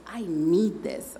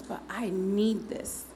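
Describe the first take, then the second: First: "need" drawn out and stressed, slow; imitated slow plea with weight on "need"; insistent. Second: Slow, with "need" stretched out; imitated insistence, "need" held long; insistent. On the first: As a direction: insist slowly, leaning on "need". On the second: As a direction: repeat the plea slowly, stressing "need". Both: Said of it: "And she says".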